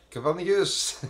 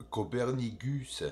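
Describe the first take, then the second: First: Copernicus! shouted out high, like an announcer's big reveal; grand announcer cry of Copernicus!; showy exclaim. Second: Said in the usual way. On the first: Acted. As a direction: belt out Copernicus! with the first syllable high and the end ringing. Names crater, then repeats it.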